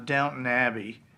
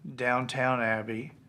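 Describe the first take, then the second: First: The first word ends in a plain 'ton' sound. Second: The first word ends in a full 'town' sound. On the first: The speaker calls it right. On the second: The speaker calls it wrong.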